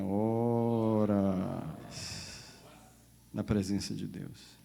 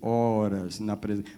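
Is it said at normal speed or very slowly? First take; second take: very slowly; normal speed. First: It is said very slowly. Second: It is said at normal speaking speed.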